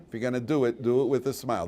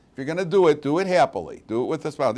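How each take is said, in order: First: Said in the usual way. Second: The mother's saying, higher and louder; imitating a nagging mother. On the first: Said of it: "You ever hear that music from your mother?". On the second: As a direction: mimic mom pressing the point. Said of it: "Our mothers say that all the time".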